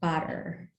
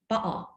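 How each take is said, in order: First: It is said in an American pronunciation. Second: It is said in another British pronunciation. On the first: "in a lot of the um, American English varieties, it's pronounced" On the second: "In other varieties of British English, is pronounced"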